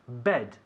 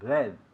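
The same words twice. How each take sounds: First: The b is released with a strong burst. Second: The b is released softly without a burst. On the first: The speaker calls it right. "es un sonido explosivo" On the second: The speaker calls it wrong. "No decimos bed"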